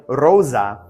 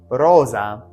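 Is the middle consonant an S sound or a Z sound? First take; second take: Z sound; Z sound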